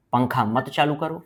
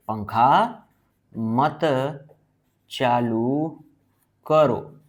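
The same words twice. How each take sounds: First: Said in the usual way. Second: पंखा, मत, चालू, करो spaced out with long pauses; word-by-word dictation. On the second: Shown as a demonstration. Dictates it while writing it out.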